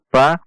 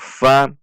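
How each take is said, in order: First: The syllable starts with a P sound. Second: The syllable starts with an F sound. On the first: The speaker calls it wrong. "bukan pa" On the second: The speaker calls it right. "namun fa"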